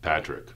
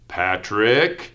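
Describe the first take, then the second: First: The name is said flatly, without engagement. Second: The name is said in a stern, scolding tone. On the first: The speaker is not interested in the listener. "That doesn't sound very engaged" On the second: The listener is in trouble. "I think I'm in trouble"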